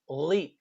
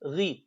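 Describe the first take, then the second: First: The syllable sounds overly heavy and exaggerated. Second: The syllable sounds normal with only slight heaviness. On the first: The speaker calls it wrong. "that's a common mistake that some students do. They say ghi" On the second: The speaker calls it right.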